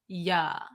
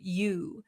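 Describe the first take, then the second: First: The vowel is a relaxed, open uh sound. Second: The vowel is a full rounded oo sound. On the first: "it becomes just a drop. Our jaw just drops down" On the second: "the oo sound, we need a lot of um, stress around our lips"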